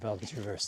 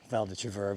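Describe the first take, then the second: First: The last word ends with an audible s sound. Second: The last word ends without a final s sound. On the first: The speaker calls it wrong. "but I said Val de Traverse" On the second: The speaker calls it right. "I knew it was Val de Travers"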